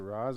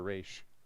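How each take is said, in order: First: The name ends with a 'z' sound. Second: The name ends with an 'sh' sound. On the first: "Is it Roz or Raish?" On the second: "Is it Roz or Raish?"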